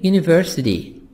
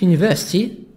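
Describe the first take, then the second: First: It is said in an American accent. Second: It is said in a British accent.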